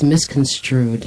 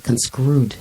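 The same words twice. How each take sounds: First: MISCONSTRUED slowly, with a clear str; correct MISCONSTRUED. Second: CONSCREWED slowly, skr instead of str; mispronounced CONSCREWED. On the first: Showing the co-host how to pronounce it, correct slow MISCONSTRUED. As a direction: model MISCONSTRUED, str not skr. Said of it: "How do you pronounce it?". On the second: Showing the co-host the error, wrong slow CONSCREWED with skr. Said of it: "It's not conscrewed". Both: Shown as a demonstration.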